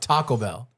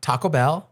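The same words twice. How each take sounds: First: It is said in a plain, neutral accent. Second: It is said in a Valley Girl accent. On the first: The speaker calls it right. "It's Taco Bell" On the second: The speaker calls it wrong. "Not Taco Bell"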